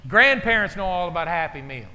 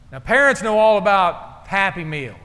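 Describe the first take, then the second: First: "Grandparents" punched as the contrast word; stress on grandparents. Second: "parents" hit hard and loud; stress on parents. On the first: Pastor contrasts grandparents for laughs, stressing "Grandparents". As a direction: lean on "Grandparents" against "parents". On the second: Pastor sets up his joke for the congregation, stressing "parents". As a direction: lean on "parents" to set up the contrast. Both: Shown as a demonstration. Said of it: "parents vs grandparents".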